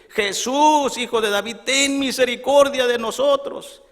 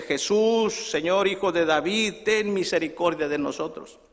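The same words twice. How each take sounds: First: Loud, high-pitched cry for mercy; acted full-voiced calling out; louder shouting. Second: Restrained imitation of blind men calling; first call out. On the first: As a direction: shout to Jesus over a crowd, imploring. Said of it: "vamos a gritar más fuerte". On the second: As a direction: call out to Jesus for mercy, holding back. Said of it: "Y empiezan a gritarle".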